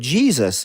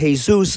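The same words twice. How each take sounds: First: The name has the English pronunciation, GEE-zus. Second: The name has the Spanish pronunciation, hay-SOOS. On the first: It refers to the religious figure. "that's a tattoo of Jesus" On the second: It refers to a man with that first name. "Jesus, the busboy at the restaurant you work at"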